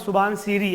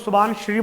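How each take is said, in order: First: The name ends with two syllables, 'si-ri'. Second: The name ends with a single 'shri' syllable. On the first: This is how local people say it. "वहां पर सुबानसिरी ऐसा local बोला जाता है" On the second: This is how people outside the region say it. "हम लोग सुबानश्री बोलते हैं"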